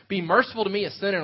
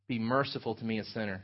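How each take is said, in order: First: Louder and higher, a desperate plea; crying out. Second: Hushed, lower humble plea. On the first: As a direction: cry it out to God for mercy. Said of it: "he's crying out to God". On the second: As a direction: pray it softly, head bowed like a sinner. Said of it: "beat his breast". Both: Retold or imitated.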